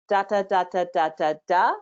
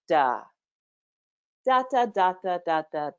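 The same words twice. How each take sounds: First: The pitch rises at the end. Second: The pitch falls at the end. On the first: The speaker calls it wrong. "That's the up lilting" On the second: The speaker calls it right. "what's called down gliding"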